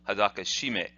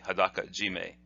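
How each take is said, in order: First: The second part starts with a 'sh' sound. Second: The second part starts with a 'j' sound. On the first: The speaker calls it wrong. "it's not pleasing to the Japanese ear to hear it instead" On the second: The speaker calls it right. "is pronounced that way"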